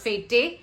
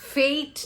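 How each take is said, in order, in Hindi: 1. इसमें एक अक्षर है, जिसमें छोटा 'e' स्वर है। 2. इसमें एक अक्षर है, जिसमें लंबा 'ay' स्वर है। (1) "or fete" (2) "We pronounce this as fate"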